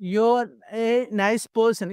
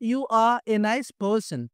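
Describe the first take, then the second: First: 'You are' is contracted to one syllable. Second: 'You are' is said as two full words. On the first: "short form చేస్తే యో" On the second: "యూ ఆర్ full form అయితే"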